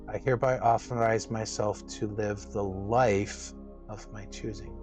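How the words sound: The word "live" is stressed.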